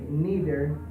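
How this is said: It is said with an American English pronunciation. "from the American English"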